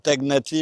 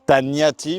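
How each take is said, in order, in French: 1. Le 'gn' se prononce comme un g et un n séparés. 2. Le 'gn' se prononce comme un seul son 'ny'. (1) "il aime pas qu'on dise Tagnati" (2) "il dit en langue française ça se dit"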